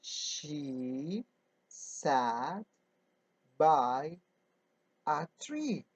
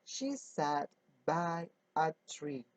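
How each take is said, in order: First: Slow word-by-word reading. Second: Said in the usual way. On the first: Shown as a demonstration. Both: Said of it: "Now we say".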